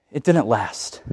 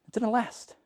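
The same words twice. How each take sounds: First: Said in the usual way. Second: Soft, sorrowful echo; preacher lamenting the revival ended; hushed sad repeat. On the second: Real, not acted. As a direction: let it fall away softly.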